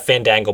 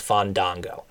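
First: Fandango said flat, as an ordinary word; plain Fandango. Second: Fandango with long open ah vowels, drawn out and softer; Fandango, the special way. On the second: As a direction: stretch Fandango into fahn-DAHN-go. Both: Shown as a demonstration. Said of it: "a name that has to be pronounced very specifically".

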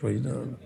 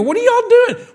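First: Quiet rebuke. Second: Shouted rebuke. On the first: First of repeated rebukes. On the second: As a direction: throw it up to the rafters. Climax of repeated rebukes. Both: Acted.

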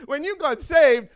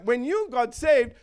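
First: "saved" landed hard, louder than the rest; stress on saved. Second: "you" stressed, "saved" left light. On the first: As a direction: hit the word "saved" with a falling push. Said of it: "stress on saved". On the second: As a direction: lean on "you" and fall away. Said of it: "stress shifted to you". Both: Shown as a demonstration.

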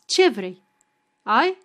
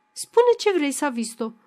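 First: A short louder demand; curt question. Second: Exasperated demand. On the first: Wife demanding what Savista wants, curt louder question. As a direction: snap the question, impatient. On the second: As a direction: push her hard to speak, losing patience. Wife pressing Savista, rising anger. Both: Acted.

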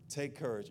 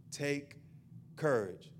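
First: Said in the usual way. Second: "Take", pause, then "courage" falling; split with a pause. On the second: Shown as a demonstration. Pastor drilling it into the online viewers, "Take" then a beat then "courage". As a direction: land "Take" and "courage" as two beats with a gap. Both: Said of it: "I'm gonna say it about five more times".

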